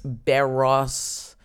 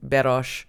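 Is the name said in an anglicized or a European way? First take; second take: anglicized; European. First: The name is said in an anglicized English way. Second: The name is said with a European pronunciation. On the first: The speaker calls it wrong. "We're victims of anglicization" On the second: The speaker calls it right. "should probably be"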